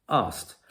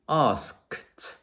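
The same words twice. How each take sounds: First: "Asked" said as "ast", with no k sound; k dropped. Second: "asked" with both k and t sounded, "askt"; full k-t ending. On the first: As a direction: say "Asked" the easy way, skipping the k before the t. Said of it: "We can simply remove the k sound". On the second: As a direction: say "asked" carefully, releasing the k and then the t. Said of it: "But that k, t is difficult". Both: Shown as a demonstration.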